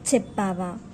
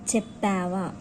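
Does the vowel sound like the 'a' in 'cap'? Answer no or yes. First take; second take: no; yes. First: The vowel is not like the a in cap. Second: The vowel sounds like the a in cap. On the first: The speaker calls it wrong. "it is not um, చెప్పావా" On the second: The speaker calls it right. "it is like చెప్పావా, pa"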